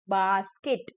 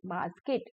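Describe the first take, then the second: First: बास्केट parted as bas, ket; broken into syllables. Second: बास्केट said softer, closer together; syllables blended. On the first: Teacher breaking a word for children, syllable-by-syllable बास्केट. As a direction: give बास्केट two separate beats. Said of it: "break करके बोला गया है". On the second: Teacher putting the word back together, softer joined बास्केट. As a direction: ease the two beats of बास्केट into one word. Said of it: "fast बोलते जाएंगे". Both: Shown as a demonstration.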